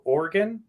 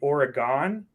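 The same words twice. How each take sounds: First: Oregon is said the local Oregon way. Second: Oregon is said the East Coast way.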